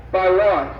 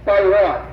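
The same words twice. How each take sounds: First: Said in the usual way. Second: "By one." said louder, stressed and slowed; disbelieving emphasis on "By one."; emphatic repeat. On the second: Real, not acted. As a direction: hammer home "By one." so it sinks in. Emphatic repeat of vote margin.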